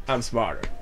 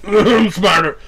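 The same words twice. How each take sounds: First: Said in the usual way. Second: Higher, louder taunt; raised cocky brag; louder cocky boast. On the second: Shown as a demonstration. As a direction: throw the boast up and out at him. Repeats line in several takes.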